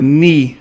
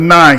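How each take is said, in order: First: The vowel sounds like ee. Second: The vowel sounds like eye. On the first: The speaker calls it right. "the I makes the e sound in Latin" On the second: The speaker calls it wrong. "not the ni sound"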